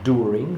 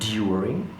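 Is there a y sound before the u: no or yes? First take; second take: no; yes. First: The d goes straight into the vowel. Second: A y sound comes between d and vowel. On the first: "they say do, like during" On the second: "rather than during"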